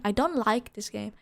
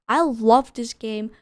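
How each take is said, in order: First: Said in the usual way. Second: "I love this game" louder, stressing "love"; emphatic correction. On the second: Shown as a demonstration. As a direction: correct yourself, hit "love" hard.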